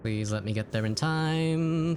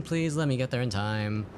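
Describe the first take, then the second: First: Drawn-out high pleading; slow dramatic plea. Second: Said in the usual way. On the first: Pretend. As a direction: stretch it out, begging. Pleading with game timer.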